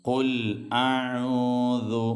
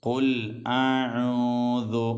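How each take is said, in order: No difference in how they are said.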